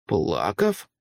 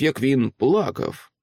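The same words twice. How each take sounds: First: Low, shocked question rising at the end; startled echo. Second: Said in the usual way. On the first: A narrator's reading. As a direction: repeat the word in disbelief. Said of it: "перепитав вражений правник". (здивовано перепитує)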